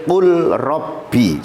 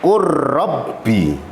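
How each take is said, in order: First: The l is pronounced separately before the r. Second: The l merges fully into the following r. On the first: The speaker calls it wrong. "tidak boleh kul robbi, salah" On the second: The speaker calls it right. "Bacanya karena itu idgham"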